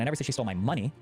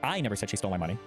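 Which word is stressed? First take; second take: money; I. First: The stress is on the word 'money'. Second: The stress is on the word 'I'. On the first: She took something else of mine. "I said she stole something of mine, but not my money" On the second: Someone else said it. "with the implication meaning that someone else said it"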